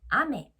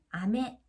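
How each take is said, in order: First: The pitch is high on the first syllable, then falls. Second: The pitch starts low and rises, then stays flat. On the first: It means rain. "비를 뜻하는 글자 아메의 경우도 아가 높습니다" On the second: It means candy. "아래서부터 평판형으로 이렇게 올리게 되면은"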